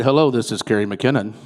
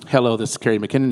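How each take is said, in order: First: A lower, sexy phone greeting; deep phone voice. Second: Said in the usual way. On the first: Shown as a demonstration. Candidate greets a caller in her deep sexy voice. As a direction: answer the phone low and sultry. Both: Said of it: "you know, with that deep voice".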